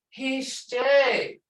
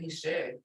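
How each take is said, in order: First: It is said warmly, with feeling. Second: It is said flatly, without feeling.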